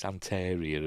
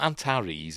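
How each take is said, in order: First: Antaria, ending in ee-uh; corrected name. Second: Antares, ending in an eez sound; wrong name. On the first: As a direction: say Antaria with stress on TAR. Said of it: "it's Antaria or something". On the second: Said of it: "It's not Antares". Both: Shown as a demonstration.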